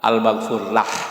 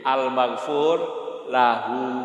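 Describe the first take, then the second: First: The phrase ends cut off on a consonant. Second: The phrase ends with a final vowel sound. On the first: The phrase is said as at a stop. "tapi kalau diwakafkan ya al-maghfur lah" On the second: The phrase is said in full, without pausing. "kalau mau disebut lengkap al-maghfur lahu"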